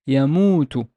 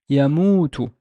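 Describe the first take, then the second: No difference in how they are said.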